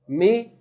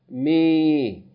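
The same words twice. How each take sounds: First: The vowel is held for one count. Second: The vowel is held for two counts. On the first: "from one count" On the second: "to two counts"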